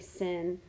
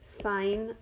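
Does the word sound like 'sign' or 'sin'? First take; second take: sin; sign. First: The word rhymes with 'pin', a short vowel. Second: The word rhymes with 'pine', a long vowel. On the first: The speaker calls it wrong. "We don't say sin" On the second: The speaker calls it right. "It's sine of theta"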